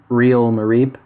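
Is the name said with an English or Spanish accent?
English. The name is said with an English accent. "as an Anglophone would say"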